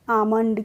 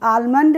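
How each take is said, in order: First: The word is said without an L sound. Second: The word is said with an L sound. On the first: The speaker calls it right. "एल का pronunciation नहीं करेंगे" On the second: The speaker calls it wrong. "आलमंड नहीं पढ़ते हैं इसको"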